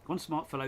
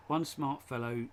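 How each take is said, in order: First: Quick attempt at a tongue twister; fast tongue twister. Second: Slow, careful first read; measured read-out of a tongue twister. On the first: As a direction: rattle the words off quickly. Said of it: "try and say it fast". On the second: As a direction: take the tongue twister slowly, word by word. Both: Shown as a demonstration.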